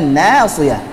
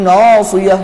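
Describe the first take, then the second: First: The vowel is said with a thin, light sound. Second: The vowel is said with a thick, heavy sound. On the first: The speaker calls it right. "harusnya nasiyah" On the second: The speaker calls it wrong. "yang seharusnya tipis malah ditebalkan"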